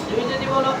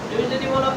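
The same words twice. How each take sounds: No difference in how they are said.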